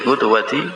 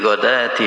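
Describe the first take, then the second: First: The first vowel is u, followed by a w. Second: The first vowel is a, with no w sound. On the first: This is the reading of one particular reciter. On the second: This is the reading of most reciters.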